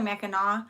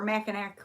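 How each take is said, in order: First: The word ends with an 'aw' sound. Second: The word ends with an 'ack' sound. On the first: The speaker calls it right. "it's actually Mackinac" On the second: The speaker calls it wrong. "people look at it and they'll say"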